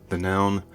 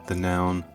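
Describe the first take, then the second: No difference in how they are said.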